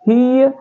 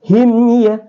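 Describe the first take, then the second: First: The m disappears, merging into ya. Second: The m is pronounced clearly before ya. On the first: The speaker calls it wrong. "jadi bukan hiya hiya" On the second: The speaker calls it right. "tapi him ya"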